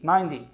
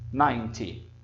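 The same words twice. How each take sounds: First: It has an American accent with a softened t. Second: It has a British accent with a clear t. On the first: "Se você quiser dizer como os americanos" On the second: "se você preferir falar como os britânicos"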